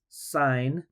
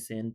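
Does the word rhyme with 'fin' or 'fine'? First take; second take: fine; fin. First: The vowel is long, like in 'fine'. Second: The vowel is short, like in 'fin'. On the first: The speaker calls it right. "so it's pronounced like that" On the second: The speaker calls it wrong. "We don't say sin"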